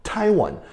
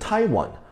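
First: The stress is on the first syllable. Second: The same.

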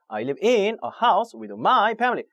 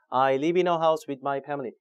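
First: The stress falls on the function words. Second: The words are said flat without stress. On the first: "거꾸로" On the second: "전혀 등급을 줄 수가 없습니다"

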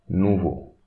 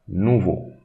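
Both takes have the same delivery.

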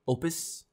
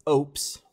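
First: The name does not sound like 'oops'. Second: The name sounds like the word 'oops'. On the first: The speaker calls it wrong. "I didn't know how to pronounce the word, so I just said Oupes" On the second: The speaker calls it right. "I actually looked it up this time. It's Oupes, like Oupes"

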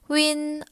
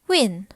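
First: The word is said with a high level tone. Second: The word is said with a falling tone. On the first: It means feeling dizzy. "위니 일성으로 발음될 때는요, 어지럽다라는 의미" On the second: It means feeling motion sick. "위니 사성으로 발음될 때는요, 멀미하다라는 의미"

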